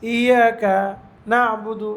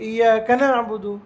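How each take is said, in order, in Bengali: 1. শব্দটি মাঝখানে থেমে আলাদা করে বলা হয়েছে। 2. শব্দটি মাঝখানে না থেমে সহজভাবে একসাথে বলা হয়েছে। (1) "এরকম বলার দরকার নেই" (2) "ইয়াকা না'বুদু স্বাভাবিক বলবে"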